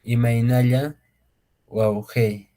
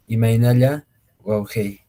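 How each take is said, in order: First: Imaynalla Waujei split in two, a pause before Waujei; careful quechua pronunciation. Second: Imaynalla Waujei in one smooth, clear phrase; quechua pronunciation, joined. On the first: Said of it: "aquí en la pronunciación, por ejemplo". (pronunciación cuidadosa en quechua, "Imaynalla" pausa "Waujei") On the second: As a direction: run "Imaynalla Waujei" together, slightly louder. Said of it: "van captando la pronunciación". ("Imaynalla Waujei" de corrido, un poco más fuerte) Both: Shown as a demonstration.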